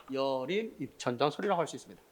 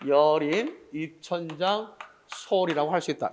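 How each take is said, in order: First: Said in the usual way. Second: Slowly, word by word, for note-taking; teacher slowing down for dictation; slow dictation pace. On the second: Shown as a demonstration. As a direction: spell it out slowly so they can write. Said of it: "이렇게 정리됐습니까?".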